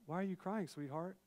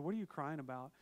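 First: Mock-sweet rephrasing of a rude question; sweetened correction. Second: Blunt, unsympathetic question; brusque husband's question; rude. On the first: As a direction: soften it into a tender question. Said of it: "that sounded really rude. I meant". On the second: Retold or imitated. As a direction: ask it bluntly, with no tenderness. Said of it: "that sounded really rude".

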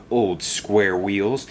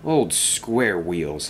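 First: Slow, drawn-out name-calling; sling the insult slowly at him; understated angry jeer, stretched out; furious taunt. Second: Slow, low-key bitter echo; mildly bitter, dragged-out mutter. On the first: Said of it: "Dennis was furious". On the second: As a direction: repeat the insult bitterly to yourself, drawn out. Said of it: "he muttered bitterly". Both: A narrator's reading.

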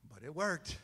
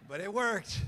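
First: Said in the usual way. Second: "But it worked" louder with a hit on "worked"; punchline repeat. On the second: Shown as a demonstration. Preacher repeats the punchline to the church, louder. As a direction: land "worked" loudly for laughs.

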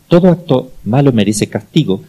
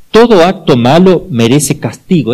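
First: Said in the usual way. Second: Slow, loud, with "todo" stressed hard; emphatic statement. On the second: Shown as a demonstration. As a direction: lay down the principle slowly, hitting "todo".

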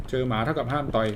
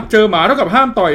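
First: Much softer, to himself; quiet repeat. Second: Said in the usual way. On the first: Shown as a demonstration. Repeating the dog rule to himself, much softer. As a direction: mutter the rule again under his breath. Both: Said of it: "เจอหมาเท่ากับห้ามต่อย ให้วิ่ง".

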